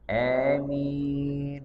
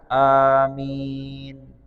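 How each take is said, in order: First: The first vowel leans toward an e sound. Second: The first vowel is an ordinary long a. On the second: "Hanya dua harakat"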